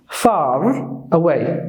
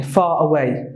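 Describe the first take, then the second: First: Slow FAR with a heavy R at the end; American FAR, R strongly pronounced; exaggerated American R. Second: FAR as "fah", R dropped; British FAR running into away without an R; British silent R. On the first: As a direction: hold the R in FAR, American style. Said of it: "they exaggerate the R". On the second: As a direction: leave the R out of FAR, British style. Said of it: "in the British accent". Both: Shown as a demonstration.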